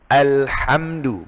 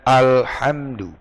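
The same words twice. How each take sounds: First: Slow Alhamdu with a plain open a; correct alhamdu. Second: Alhamdu with the a darkened toward o; wrong alhamdu. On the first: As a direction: model Alhamdu slowly. (alhamdu yang benar) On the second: (alhamdu yang salah) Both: Shown as a demonstration. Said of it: "bukan alhamdu".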